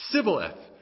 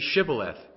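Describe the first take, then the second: First: The word begins with an 's' sound. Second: The word begins with an 'sh' sound. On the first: The speaker calls it wrong. "they couldn't pronounce it" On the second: The speaker calls it right. "Say Shibboleth"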